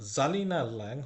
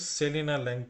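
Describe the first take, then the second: First: The name begins with a z sound. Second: The name begins with an s sound. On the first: The speaker calls it right. "এস উচ্চারণ না হয়ে জেড উচ্চারণ হয়" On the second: The speaker calls it wrong. "আমরা কিন্তু সেলিনা ল্যাং পড়বো না"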